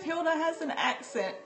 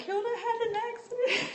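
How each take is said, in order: First: Put-on "accent" said as two syllables, high; intended wording. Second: High, laughing child imitation ending on "accident"; mimicked schoolchildren. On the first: Correcting what the classmates said about Hilda, amused and high. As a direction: say "accent" cleanly, without an extra syllable, amused. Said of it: "Instead of". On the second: Remembering what all the children said, high laughing mimicry. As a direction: squeal it like kids, breaking into laughter. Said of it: "It was like".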